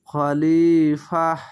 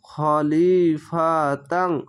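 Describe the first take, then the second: First: The word ends with a final h sound. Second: The word ends with a final n sound. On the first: The reader stops at this word. "গোলতার কাছে যদি থামেন তাহলে একে হা পড়তে হবে" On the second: The reading continues without stopping. "তা দো যাবার তাং"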